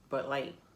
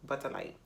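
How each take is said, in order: First: The first word is one short syllable, bud. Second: The first word sounds like two syllables, butter. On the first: The speaker calls it right. "Now I can say it right" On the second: The speaker calls it wrong. "I was saying but Butter Light"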